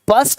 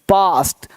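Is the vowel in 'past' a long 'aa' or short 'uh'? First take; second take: short uh; long aa. First: The vowel is a short 'uh' sound. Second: The vowel is a long 'aa' sound. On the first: The speaker calls it wrong. "पस्ट नहीं" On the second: The speaker calls it right. "आ का sound आ रहा है"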